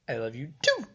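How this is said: The pitch goes high at the end.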